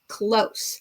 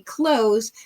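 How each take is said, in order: First: The word ends with a hissing s sound. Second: The word ends with a buzzing z sound. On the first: Near or almost, not quite. "here in the yellow category, I'm going to use it as close" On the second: To shut something, the opposite of open. "They put it right next to the word open so that you would say close"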